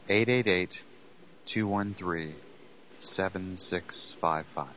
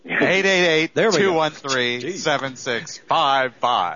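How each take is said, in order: First: It is said quietly, almost whispered. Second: It is said loudly, almost shouted.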